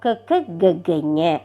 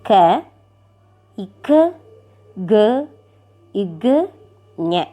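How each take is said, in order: First: The letters are said quickly, run together. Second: The letters are said slowly, one by one.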